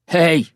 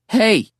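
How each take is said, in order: First: It is said in a deep, gruff voice. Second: It is said in a high, weird voice.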